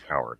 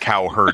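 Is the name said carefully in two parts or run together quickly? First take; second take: run together; two parts. First: The name is said fast and run together. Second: The name is said carefully as two parts.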